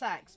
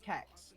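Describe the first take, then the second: First: The name begins with an S sound. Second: The name begins with a K sound. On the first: "it's actually pronounced sex" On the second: "but I call it kex"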